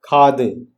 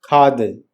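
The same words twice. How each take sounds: No difference in how they are said.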